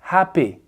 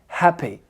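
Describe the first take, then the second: Both takes have the same delivery.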